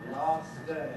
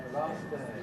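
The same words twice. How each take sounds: No difference in how they are said.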